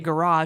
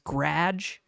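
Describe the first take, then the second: First: It has two syllables with the first vowel. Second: The first vowel is dropped, leaving one syllable. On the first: "she doesn't say garage" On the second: "she just says grage"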